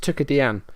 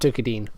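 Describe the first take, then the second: First: The ending does not sound like 'dean'. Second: The ending sounds like 'dean'. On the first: The speaker calls it right. "Apparently it's Tukadian" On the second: The speaker calls it wrong. "not Tukadine. Not Dean as in Dean Gaffney"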